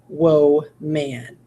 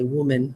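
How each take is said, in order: First: Both syllables have full vowels, like two words. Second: The second syllable has a weak, reduced vowel. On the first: The speaker calls it wrong. "So you go whoa, oh, m, a, n" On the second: The speaker calls it right. "We say woman, woman. It's making its lazy sound"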